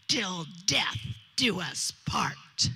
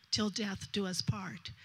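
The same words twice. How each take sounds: First: Slow, breathy whispered vow. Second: Said in the usual way. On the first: Retold or imitated. Bride whispering her vow to the groom, slow and hushed. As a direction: breathe the words out slowly, full of meaning.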